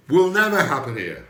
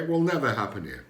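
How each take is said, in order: First: Loud emphatic. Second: Said in the usual way. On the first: Real, not acted. Repeats the claim for emphasis.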